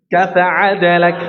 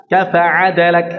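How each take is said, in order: No difference in how they are said.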